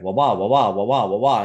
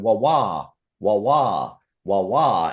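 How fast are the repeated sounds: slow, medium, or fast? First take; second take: medium; slow. First: The repeated sounds come somewhat closer together. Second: The repeated sounds are spaced out slowly.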